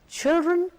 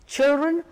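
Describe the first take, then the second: No difference in how they are said.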